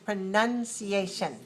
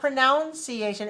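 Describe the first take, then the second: First: The second syllable has an 'uh' vowel. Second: The second syllable has an 'ow' vowel. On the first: The speaker calls it right. "it's pronunciation" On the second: The speaker calls it wrong. "So it's not pronunciation"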